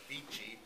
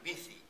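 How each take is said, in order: First: The name starts with a V sound. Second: The name starts with B, middle 'th'. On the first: This is the name's owner's own pronunciation. "I pronounce it as Vici" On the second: This is how people in Spain say it. "in Spain, the V is a B, the C is a T H"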